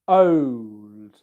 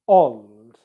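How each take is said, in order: First: The vowel glides as a diphthong. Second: The vowel is a single pure sound. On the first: This is the traditional, more old-fashioned pronunciation. "pronounced old with an O diphthong" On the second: This is a more modern pronunciation. "more of an O sound, as in old"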